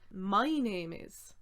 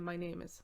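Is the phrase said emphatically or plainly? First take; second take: emphatically; plainly. First: The phrase is said with extra emphasis. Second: The phrase is said plainly without emphasis. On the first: "how you change your voice in English to say" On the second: "instead of just saying"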